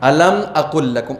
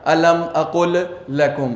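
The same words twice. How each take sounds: First: The two L sounds merge into one. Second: The L of aqul is sounded separately. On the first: The speaker calls it right. "आप कैसे पढ़ेंगे?" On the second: The speaker calls it wrong. "आपको इसको ऐसे नहीं पढ़ना है"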